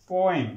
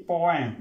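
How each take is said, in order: The two takes are said the same way.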